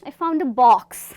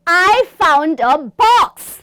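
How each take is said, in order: First: It is said in a calm, casual tone. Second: It is said in an angry, accusing tone. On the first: Finding the box no longer matters much. "अभी important नहीं है" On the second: Someone was hiding the box on purpose. "सामने वाले पे गुस्सा करते हुए बोलना है"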